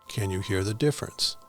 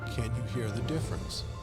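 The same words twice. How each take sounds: First: It is recorded at a middle fader level. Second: It is recorded at the lowest fader level. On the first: "Level seven" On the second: "Level five"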